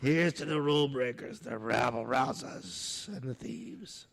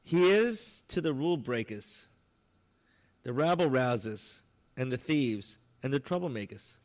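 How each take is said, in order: First: Put-on light New York accent on the toast; a slight New York accent, words drawn out slowly. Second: Put-on louder, full New York accent on the toast. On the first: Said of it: "And I said it with a New York accent". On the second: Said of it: "with a complete New York accent".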